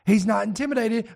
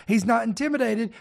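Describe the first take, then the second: No difference in how they are said.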